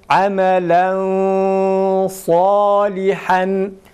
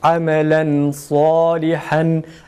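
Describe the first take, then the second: First: The n is hidden in a thick nasal sound. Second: The n is pronounced plainly with no nasal hold. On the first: "Tecvidi ise sad kalın olduğu için e, ihfayı kalın"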